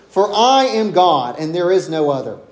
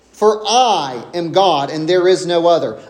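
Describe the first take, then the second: No difference in how they are said.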